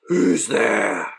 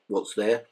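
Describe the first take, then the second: First: It is asked with courage and passion. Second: It is asked quietly and without passion.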